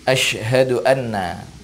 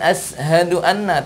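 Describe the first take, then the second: First: The word uses a sh sound. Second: The word uses a plain s sound. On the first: The speaker calls it right. "huruf shin" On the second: The speaker calls it wrong. "bukan sin"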